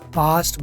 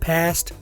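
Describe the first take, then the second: First: The vowel is a long open 'ah' sound. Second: The vowel is a short flat 'a' sound. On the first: "पास्ट British है" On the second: "फास्ट American है"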